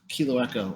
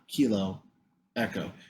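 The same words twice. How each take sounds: First: The two words run together as one name. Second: A pause separates the two words. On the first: It names one taxiway with a two-letter name. The speaker calls it right. "your rhythmic cadence indicates that it's Kilo Echo" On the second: It names two separate taxiways. The speaker calls it wrong. "and not Kilo Echo"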